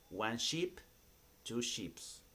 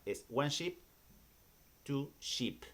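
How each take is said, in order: First: "two sheeps" with a plural s wrongly added at the end. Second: "sheep" kept unchanged in the plural, no final s; correct plural sheep. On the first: Teacher showing students the common mistake, "sheeps" with an s. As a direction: say "sheeps" the tempting wrong way, with a final s. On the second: Teacher correcting students: "sheep" stays the same without an s. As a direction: say "two sheep" plainly, with no s on "sheep". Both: Shown as a demonstration. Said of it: "le da ganas de decir sheeps para plural".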